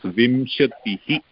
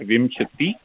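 First: The word ends with an added breathy 'hi' echo. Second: The word ends on a plain 'ti' sound. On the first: The speaker calls it right. "the Visarga should be stressed" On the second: The speaker calls it wrong. "It's not Vimshati"

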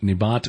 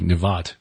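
First: The middle consonant is a B sound. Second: The middle consonant is a V sound.

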